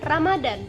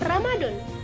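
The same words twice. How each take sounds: First: The last vowel is an a sound. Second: The last vowel is an o sound. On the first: The speaker calls it right. "Lafalan bakunya" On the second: The speaker calls it wrong. "Kata tidak bakunya menjadi"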